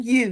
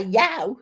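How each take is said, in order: First: Said in the usual way. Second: "yow" with a wide ow vowel; Brummie "yow". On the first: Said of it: "instead of saying". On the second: Shown as a demonstration. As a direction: say "yow" to rhyme with cow. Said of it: "you would say".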